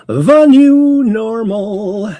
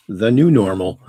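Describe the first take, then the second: First: High, loud, drawn-out mock proclamation; hammed-up catchphrase. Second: Said in the usual way. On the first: Host repeats the show's catchphrase for effect, hammed-up. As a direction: stretch it right out, high and loud, hamming it up.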